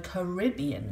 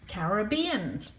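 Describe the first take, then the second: First: It is pronounced in the American way. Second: It is pronounced in a non-American way.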